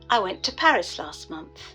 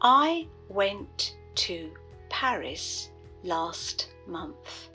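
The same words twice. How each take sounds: First: The final T sounds in went and last are dropped. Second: The final T sounds in went and last are pronounced.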